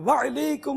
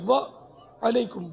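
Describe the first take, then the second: First: The 'wa' runs straight into 'laikum' as one word. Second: A brief catch separates 'wa' from 'alaikum'. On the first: The speaker calls it wrong. "ये भी गलत है" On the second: The speaker calls it right. "थोड़ा सा रुके"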